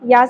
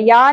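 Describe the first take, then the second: First: The syllable ends with an abrupt glottal catch. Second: The syllable flows on smoothly without a catch. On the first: The speaker calls it right. "جھٹکا سے ادا ہوگا" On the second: The speaker calls it wrong. "یا نہیں پڑھنا"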